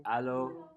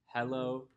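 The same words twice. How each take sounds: First: "Allo" starting straight on an a, no h; allo, h dropped. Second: Said in the usual way. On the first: Shown as a demonstration. Comparing variants of one greeting, "Allo" with no h. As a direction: drop the h and open the first vowel in "Allo". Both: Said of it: "It's all the same word".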